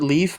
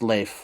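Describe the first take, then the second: First: The name sounds like the word 'leaf'. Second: The name does not sound like 'leaf'. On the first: This is the common way people say it. The speaker calls it wrong. "I think people pronounce it Leaf" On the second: This is the more accurate way to say it. The speaker calls it right. "but I think it is pronounced Leif"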